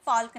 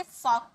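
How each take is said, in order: First: फॉल्क with l before k; sounded l. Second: फॉक as "fawk", no l; silent l. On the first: Teacher rules out this reading, l sounded. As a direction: read फॉल्क with its l pronounced. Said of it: "फॉल्क नहीं पढ़ेंगे". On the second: Teacher sums up the rule for learners, l silent. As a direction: read फॉक without any l sound. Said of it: "इसे फॉक पढ़ेंगे". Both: Shown as a demonstration.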